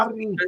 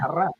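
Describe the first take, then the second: First: The syllable ends with an i vowel. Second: The syllable ends with an a vowel. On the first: The speaker calls it wrong. "no arri" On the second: The speaker calls it right. "es arra"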